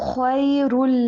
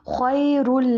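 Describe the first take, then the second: Both takes have the same delivery.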